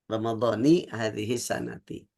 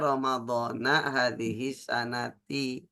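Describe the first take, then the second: First: The first word ends with an 'i' vowel. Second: The first word ends with an 'a' vowel. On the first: The speaker calls it right. "yang betul Ramadhani hadhihi sanati" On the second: The speaker calls it wrong. "bukan dibaca Ramadhana hadhihi sanati"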